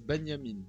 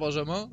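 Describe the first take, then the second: First: The name is said with its original, non-French pronunciation. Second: The name is said with French pronunciation. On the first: This is how the name is originally said. "je crois que ça se dit Benjamin de base" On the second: The name is adapted to French. "on va dire Benjamin, on va rester dans le français"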